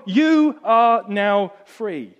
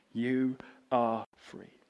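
First: High, loud and very slow proclamation; loud slow declaration. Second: Slow, soft and tender; gentle reassurance. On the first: Englishman proclaiming her freedom, loud and drawn out. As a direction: proclaim it to the whole street. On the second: Englishman quietly reassuring the disbelieving woman, slow and tender. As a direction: say it gently so she believes. Repeated gently, papers pushed. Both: Acted.

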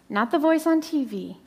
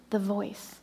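First: Said in the usual way. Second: The voice said softer and lower, weighted on the voice; emphatic soft. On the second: Shown as a demonstration. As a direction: lean into the voice, hushed.

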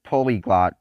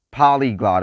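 First: Polyglot said as POH-lee-glot, first syllable like "po"; polyglot, tentatively retried as POH-lee-glot; corrected pronunciation. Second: Polyglot said as PAH-lee-glot, first syllable like "pa"; polyglot, stressed PAH-lee-glot; first pronunciation. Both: Shown as a demonstration. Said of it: "or is it polyglot?".

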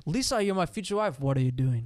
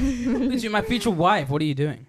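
First: High, falling start on Lisa; starts really high. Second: Lisa high and loud, laughing through it; high-start Tommy impression. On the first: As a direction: swoop down from the top of the line. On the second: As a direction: overdo the swoop from the top. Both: Shown as a demonstration. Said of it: "he either starts really high or he starts really low".

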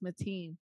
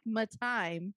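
First: Mateen, second syllable rhyming with "seen"; correct surname pronunciation. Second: Matime, second syllable rhyming with "time"; misread surname. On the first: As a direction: say Mateen with a long ee. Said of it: "but it's pronounced Mateen". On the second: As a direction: say Matime with a long i at the end. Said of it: "it looks like Matime". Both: Shown as a demonstration.

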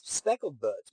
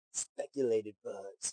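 First: Said in the usual way. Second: "Speculated buds" misread, said slowly and softly as speculated. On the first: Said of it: "my bad". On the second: Real, not acted. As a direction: stumbles into "Speculated" instead of speckled. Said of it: "Speckled buds, my bad".

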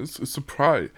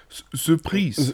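First: Said in the usual way. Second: Put-on slow French-accented surprise. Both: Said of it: "wie der Franzose sagt".

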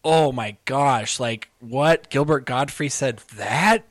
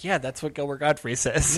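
First: Slow, drawn-out mock disbelief; mock shock. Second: Matter-of-fact, unimpressed; unsurprised shrug. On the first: Imagining listeners reacting to the tweet, mock shocked. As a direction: act mildly scandalized. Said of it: "but it wasn't like". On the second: Acted. Imagining listeners used to the comedian, mildly dismissive. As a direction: shrug it off as expected. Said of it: "it was just like".

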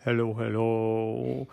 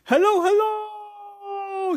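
First: Echo. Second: Very high, long drawn-out call; shouted. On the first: Empty house answering Nate, low echo. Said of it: "echoed back". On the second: Nate testing the strange house, high shouted hello. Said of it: "shouted Nate". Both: Acted.

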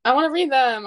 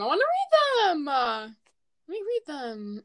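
First: Said in the usual way. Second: Much higher, pleading repeat; whiny insistence. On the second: Real, not acted. Podcaster pleading to read the DMs, higher whine.

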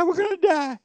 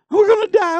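First: High shouted cry that drops away at the end; a hammed-up scream of doom that fades out; mock panic. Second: Much higher, louder panicked mock cry. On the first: Israelites crying out as the army returns, high mock shout fading. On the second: Israelites see the Egyptians coming, hammed-up high panic. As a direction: play the terrified crowd, hammed-up.

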